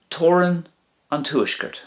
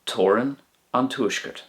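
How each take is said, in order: First: "Toran an Tuaisceart" pitched high, "Toran" lifted; bright model. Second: Said in the usual way. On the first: Shown as a demonstration. Teacher modelling the Irish phrase for learners, pitched high. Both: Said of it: "the northern border".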